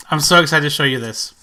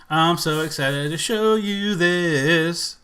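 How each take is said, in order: First: Said in the usual way. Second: Slow, stretched-out anticipation; playful sustained build-up to a reveal; drawn-out singsong. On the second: Pretend. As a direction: stretch each word, holding the last. Repeats it in singsong before clip.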